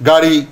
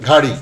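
First: Said in the usual way. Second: ঘাড়ি with a breathy voiced gh; mispronounced aspiration. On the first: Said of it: "সেটি অনেক সময় হয়ে যাচ্ছে". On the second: Shown as a demonstration. Teacher showing what gari often becomes, aspirated ঘাড়ি. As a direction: start ঘাড়ি with aspirated gh in place of g. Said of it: "অনেক সময় হয়ে যাচ্ছে".

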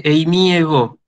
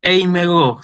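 First: "eimiego" with the iota sounded; unelided pronunciation. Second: "Eimego" as one word, iota left silent; "Eimego" run together, no vowel before ego but e; elided pronunciation. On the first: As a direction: keep both vowels, i then e, in "eimiego". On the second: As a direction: drop the i and say "Eimego". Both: Shown as a demonstration. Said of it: "en vez de eimiego".

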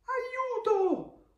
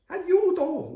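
First: Very high, drawn cry for help; hammed-up panicked armadillo yelling for help; storybook scream. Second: High, loud storybook yell; shouted group alarm. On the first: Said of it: "urla l'armadillo". (grido acuto dell'armadillo in pericolo) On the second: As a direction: shout for help as the whole frightened gang. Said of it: "urlano tutti gli altri". (urlo acuto di tutti gli amici) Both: A narrator's reading.

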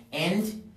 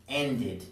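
First: Said in the usual way. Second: "ended" in two syllables, end-id; "ended" with a falling, clearly sounded "id"; added -ed syllable. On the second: Shown as a demonstration. Teacher adding una sílaba adicional, "ended" said end-id. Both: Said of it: "tenemos que agregar una sílaba adicional".

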